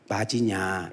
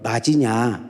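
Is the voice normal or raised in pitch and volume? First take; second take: normal; raised. First: The voice is at a normal level. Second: The voice is raised, higher and louder.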